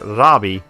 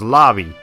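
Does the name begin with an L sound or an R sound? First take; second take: R sound; L sound. First: The name begins with an R sound. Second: The name begins with an L sound. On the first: "it's supposed to be Rabi with an R" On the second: "it's pronounced Labi with an, with an R that sounds like an L"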